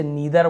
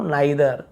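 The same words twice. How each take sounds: First: नीदर with a long 'ee', 'nee-dar'; नीदर said as NEE-dar; ee variant. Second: नाइदर with an 'eye' first vowel, 'nai-dar'; नाइदर said as NAI-dar; eye variant. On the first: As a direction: say नीदर with an ee first vowel. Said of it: "इसे नीदर बोलते हैं ना". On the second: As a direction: open the first syllable of नाइदर into 'nigh'. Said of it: "आई उच्चारण निकल रहा है". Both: Shown as a demonstration.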